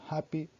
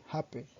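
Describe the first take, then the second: First: Said in the usual way. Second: "happy" ending in an open eh, like "happeh"; Yorkshire final vowel. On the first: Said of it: "sound more like happy". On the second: Shown as a demonstration. Presenter showing Yorkshire word endings, final eh on "happy". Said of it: "E sound are pronounced E".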